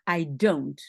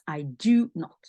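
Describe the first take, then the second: First: The verb is contracted into one syllable. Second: The verb is said in full, two syllables. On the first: A neutral statement without special emphasis. "Sinon, on peut dire I don't" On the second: The negation is emphasized: not at all. "quand on veut mettre l'accent dessus, on laisse I do not"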